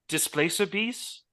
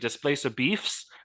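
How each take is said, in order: First: The last word ends with a clear s sound. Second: The last word ends with an f sound.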